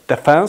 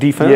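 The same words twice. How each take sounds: First: It is said with the British stress pattern. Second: It is said with the American stress pattern.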